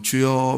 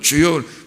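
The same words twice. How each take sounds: First: It is said quietly. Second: It is said loudly.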